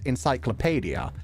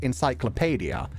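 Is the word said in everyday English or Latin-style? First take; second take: Latin-style; Latin-style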